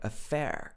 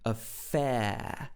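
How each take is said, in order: First: The word is said in an American accent. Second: The word is said in a British accent. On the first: "In American English, it would be something like affair" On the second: "But in the British accent, affair"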